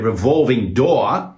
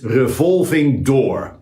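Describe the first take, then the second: First: The R is not rolled. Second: The R is rolled. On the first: The speaker calls it wrong. "or a revolving door" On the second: The speaker calls it right. "you roll the R"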